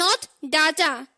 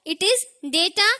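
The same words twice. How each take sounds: First: Data slowly as "daa-taa"; wrong pronunciation. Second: Data slowly as "day-taa"; correct pronunciation. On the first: Teacher warning against the error, data as "daa-taa". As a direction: say data with a long "aa" first. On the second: Teacher contrasting for learners, data as a slow "day-taa". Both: Shown as a demonstration. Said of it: "it is data and not data".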